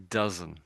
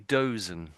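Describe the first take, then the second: First: The first vowel sounds like 'uh'. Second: The first vowel sounds like 'oh'. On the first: The speaker calls it right. "We say dozen" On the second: The speaker calls it wrong. "we don't really say dozen. ... you might think it's that"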